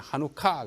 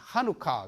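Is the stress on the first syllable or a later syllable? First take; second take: later syllable; first syllable. First: The stress is not on the first syllable. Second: The stress is on the first syllable. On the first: "유대인들은 하누카 그래요" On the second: This is the English way of saying it. "영어는 액센트를 앞에 붙입니다"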